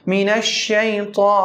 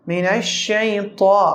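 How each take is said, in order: Both takes have the same delivery.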